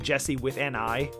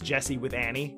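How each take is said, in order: First: The ending is two words, 'an' then the letter 'I'. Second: The ending runs together into the single word 'Annie'. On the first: The screen name is spelled with the letter I. The speaker calls it right. "it's supposed to be Jesse with an I" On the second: People hear it as the name Annie. The speaker calls it wrong. "it comes out as Jesse with Annie every time"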